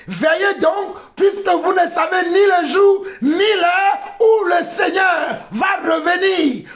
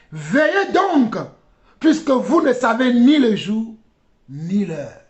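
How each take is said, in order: First: High, ringing preacher's shout; urgent high-pitched exhortation; impassioned preaching. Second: Said in the usual way. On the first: Real, not acted. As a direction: proclaim the verse to the congregation. Same verse preached with force.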